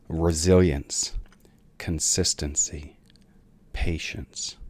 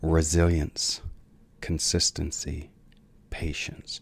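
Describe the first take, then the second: First: It is said slowly and deliberately. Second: It is said at normal speed.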